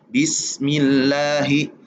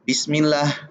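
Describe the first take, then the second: First: The final h flows out with audible breath. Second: The final h is cut short without breath. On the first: The speaker calls it right. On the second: The speaker calls it wrong.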